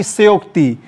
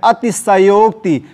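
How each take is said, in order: First: सयोक्ति squeezed to "syokti"; wrong form. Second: अतिशयोक्ति with a full "sha" syllable; full vowel before यो in अतिशयोक्ति; correct form. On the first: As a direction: drop the first vowel of सयोक्ति. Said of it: "ना कि". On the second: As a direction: say अतिशयोक्ति as ati-sha-yokti. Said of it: "ये पूरा रहेगा". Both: Shown as a demonstration.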